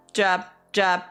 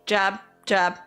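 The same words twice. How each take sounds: The two takes are said the same way.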